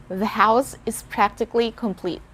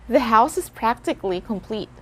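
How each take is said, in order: Both takes have the same delivery.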